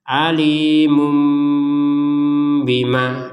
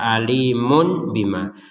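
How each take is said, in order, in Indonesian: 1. Kata itu berakhir dengan bunyi m. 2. Kata itu berakhir dengan bunyi n yang jelas. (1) "sekarang menjadi mum" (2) "ini kan jelas kalau dibaca alimun bima"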